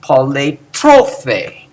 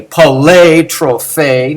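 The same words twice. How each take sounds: First: Poletrophe slow, poly unaccented; poletrophe, the right way to stress it. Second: Poletrophe with a wrong stressed poly. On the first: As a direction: slowly say poletrophe with poly light. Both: Shown as a demonstration. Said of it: "No, no".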